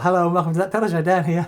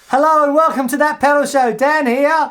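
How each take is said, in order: First: It is said at a quieter, normal level. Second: It is said loudly, almost shouted.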